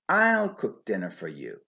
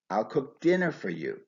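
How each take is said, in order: First: The main stress falls on I'll. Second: The main stress falls on dinner. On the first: "I would stress the normally unstressed personal pronoun I" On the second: "only the verb cook and the noun dinner are stressed"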